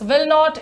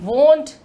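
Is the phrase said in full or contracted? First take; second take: full; contracted. First: It is said as two full words. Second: It is said as one short contracted syllable.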